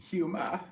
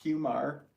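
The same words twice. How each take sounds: First: Boston "humor" as "hyoo-mah", pitched high; imitated Boston "hyoo-mah"; r-less Boston accent. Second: "humor" with the final r sounded, pitched up; "humor" as "hyoo-mar", lifted like a question; r pronounced. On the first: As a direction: say "humor" high, dropping the final r, Boston style. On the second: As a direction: say "humor" ending in a clear r. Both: Shown as a demonstration. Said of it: "you say hu-, humor".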